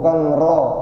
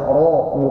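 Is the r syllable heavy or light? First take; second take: light; heavy. First: The syllable is light, with a thin vowel. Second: The syllable is heavy, with a full rounded vowel. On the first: The speaker calls it wrong. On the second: The speaker calls it right. "ro-nya tebal"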